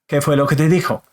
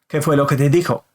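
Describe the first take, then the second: No difference in how they are said.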